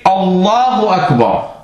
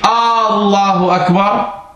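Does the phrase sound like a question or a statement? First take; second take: statement; question. First: It is said like a statement. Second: It is said like a question. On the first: It declares that Allah is great. The speaker calls it right. "Så skal du sige Allahu Akbar" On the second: It asks whether Allah is great. The speaker calls it wrong. "Ikke Allahu Akbar. Allahu Akbar, det er en indikering for spørgsmål"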